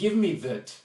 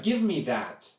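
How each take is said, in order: First: The word 'that' has a reduced vowel. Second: The word 'that' has a full vowel. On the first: The speaker calls it wrong. "sounds very odd" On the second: The speaker calls it right. "We say"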